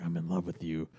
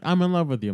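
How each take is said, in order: First: Soft, lower, intimate love line; tender confession. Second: Higher, louder, hammed-up love line; mock the corny declaration; cheesy confession. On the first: Retold or imitated. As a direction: gaze into her eyes and murmur it. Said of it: "Kylo looking ... into Rey's eyes, like". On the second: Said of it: "'cause it's cheesy for him to be like".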